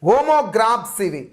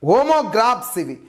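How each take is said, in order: Both takes have the same delivery.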